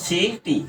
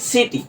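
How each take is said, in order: First: "সিটি" slow, as two separate beats সি, টি; split into syllables. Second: Said in the usual way. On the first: Shown as a demonstration. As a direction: break "সিটি" into সি, then টি. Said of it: "ভাঙি তাহলে দেখো". ("সিটি" ভেঙে, সি আর টি) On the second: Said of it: "সিটিটাকে যদি আমরা যদি".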